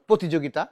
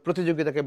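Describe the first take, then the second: First: The first syllable has no r after p. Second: The first syllable has an r after p. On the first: The speaker calls it wrong. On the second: The speaker calls it right.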